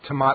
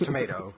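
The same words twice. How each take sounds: First: It is said the British way. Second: It is said the American way. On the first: The speaker calls it wrong. "I don't know anybody has ever said tomato. Well, maybe in England" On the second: The speaker calls it right. "we both agree it's tomato"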